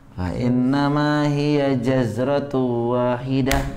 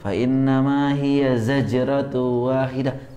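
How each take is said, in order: First: The word starts with j, then z. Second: The word starts with z, then j. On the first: The speaker calls it wrong. "Tapi ada yang baca jaz" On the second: The speaker calls it right. "Kan yang betul"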